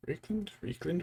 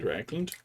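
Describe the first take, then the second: First: "Reikland" said with REEK as first syllable; higher, softer "Reikland", pronounced REEK-lund; alternate pronunciation. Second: "Reikland" said with RIKE as first syllable; "Reikland" with a long I, RIKE-lund; alternate pronunciation. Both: Shown as a demonstration. Trying out pronunciations of paint name.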